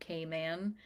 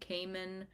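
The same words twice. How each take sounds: First: It is said the way residents say it. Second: It is said the common outsider way. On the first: This is how residents of the islands say it. The speaker calls it right. "the people who live there pronounce it Cayman" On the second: This is how many non-residents say it. The speaker calls it wrong. "A lot of people, I think, pronounce it a different way"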